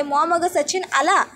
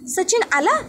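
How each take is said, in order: First: Said in the usual way. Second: Startled question, pitched high with a rising end; surprised. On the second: A narrator's reading. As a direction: react as if you can't believe he's here. Mother startled by the news.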